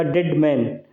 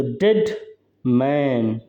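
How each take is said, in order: First: Said in the usual way. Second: डेड held, pause, मैन held and lower; two long syllables. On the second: Shown as a demonstration. Teacher showing a spondee to students, डेड, मैन both held long. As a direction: stretch डेड and मैन as separate beats. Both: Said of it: "long syllable हो गया".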